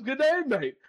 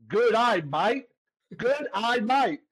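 First: Said in the usual way. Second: Slow mock Australian "good day, mate"; three English words run into an Australian accent; Australian accent demo. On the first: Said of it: "It says". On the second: Shown as a demonstration. Showing the Aussie critic how to speak Australian, Australian accent. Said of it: "It sounds like you're saying".

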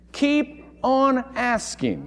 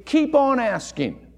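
First: Slow repeat. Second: "Keep on asking" with KEEP stressed and drawn out; emphatic. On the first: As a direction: let "Keep on asking" sink in slowly. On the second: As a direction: press hard on "Keep". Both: Shown as a demonstration. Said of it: "A better translation would be".

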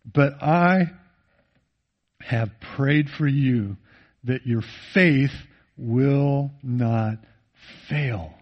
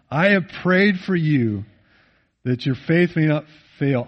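First: Tender hush. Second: Said in the usual way. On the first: Acted. Quoting Jesus' prayer for Peter.

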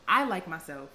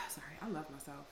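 First: Said in the usual way. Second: Soft breathy whisper after a sigh; whispered correction. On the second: Shown as a demonstration.

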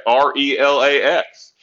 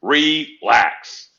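First: Slow, each letter of R E L A X said separately; spelled out letter by letter. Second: Said in the usual way. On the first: Retold or imitated. Mocking how Aaron would say it, spelling R E L A X slowly. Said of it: "He can spell that". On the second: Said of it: "Like Aaron would say".

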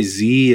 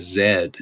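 First: "Z" said as zee, the American way. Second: "Z" said as zed, the Canadian way. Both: Shown as a demonstration. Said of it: "we used to say Z as Z".

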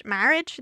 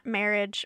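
First: "Marriage" with an open "a" as in cat, rising; questioned pronunciation. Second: Said in the usual way. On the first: Shown as a demonstration. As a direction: say "Marriage" as a question, first vowel wide open. Questions the word just said.

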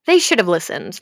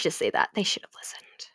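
First: Said in the usual way. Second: Dark hushed whisper. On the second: Real, not acted. About the Order's fate, a sinister whisper. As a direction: say it as a sinister aside. Ominous aside to viewers.

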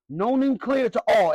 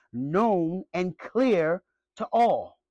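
First: Said in the usual way. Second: Very slow, each word weighed; "known and clear to all" drawn out slowly with a fall on "clear"; slow emphatic line. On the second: Real, not acted. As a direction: lay it down deliberately. Preacher drawls key phrase.

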